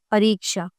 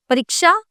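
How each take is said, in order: First: Said in the usual way. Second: परीक्षा read out high with a rise as the wrong one; परीक्षा said higher, rising, as the mistake; incorrect form. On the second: Shown as a demonstration. Teacher reading out the wrong spelling to students, higher. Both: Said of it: "अब आप देखिए यहाँ पे".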